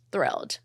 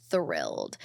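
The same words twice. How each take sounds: First: Said in the usual way. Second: "Thrilled" dropped very low and soft; deep, low "Thrilled" as a joke; deep mock voice. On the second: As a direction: growl out "Thrilled" in a deep, quiet voice. Repeats the word much lower.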